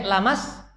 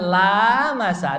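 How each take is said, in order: First: The first vowel is cut short. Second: The first vowel is drawn out long. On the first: It means sexual intercourse. "kalau kalau pendek lamas" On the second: It means touching. "Kalau kalau panjang berarti bersentuhan"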